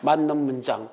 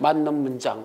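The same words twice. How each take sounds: First: It is said weakly, in a fading, unsure voice. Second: The same.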